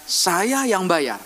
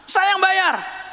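First: Slow, calm, deliberate insistence; slow firm insisting. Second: High, pushy insisting. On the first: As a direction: lay each word down slowly. (pelan dan tegas) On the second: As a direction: snap it out, I'm paying. (ngotot, lebih tinggi) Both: Retold or imitated. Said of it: "Dia bilang gini".

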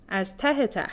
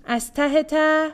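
First: «از ته ته.» lower and softer, as a statement; firm answer. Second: «از ته ته؟» as a high, drawn-out question; talking to a child. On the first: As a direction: answer «از ته ته.» without the questioning lift. Girl answers the teasing question. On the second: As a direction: stretch «از ته ته؟» slowly upward, as if teasing a child. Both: A narrator's reading.

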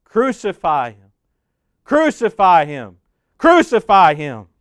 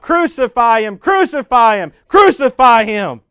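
First: Chanted cry, growing louder with each repeat; crowd crying out. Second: Loud, higher shouted chant, last one slowed; louder crowd cry. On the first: Narrator voicing the crowd answering Pilate, rising chant. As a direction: call it out as the angry crowd. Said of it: "the crowd cries out". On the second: Narrator voicing the crowd overruling Pilate, loud shouted chant. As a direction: yell it like a mob gone wild. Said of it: "They get louder and louder and cry out". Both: A narrator's reading.

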